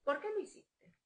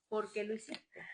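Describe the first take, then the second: First: High-pitched rising ask; imitating her own question to her child; probing question. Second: Said in the usual way. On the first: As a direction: ask it sharply, wanting an answer. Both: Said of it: "yo se lo pregunto diez mil veces".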